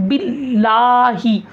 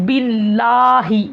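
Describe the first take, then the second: Both takes have the same delivery.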